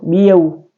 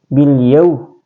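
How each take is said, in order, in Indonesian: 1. Bunyi L dihilangkan. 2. Bunyi L jelas dibunyikan. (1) "tidak boleh"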